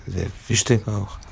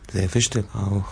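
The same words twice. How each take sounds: The two takes are said the same way.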